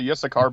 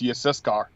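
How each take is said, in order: First: The name has an English pronunciation. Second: The name has a Hebrew pronunciation. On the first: The speaker calls it wrong. "people say Yissachar because they're used to hearing it anglicized" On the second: The speaker calls it right. "It's Yissachar"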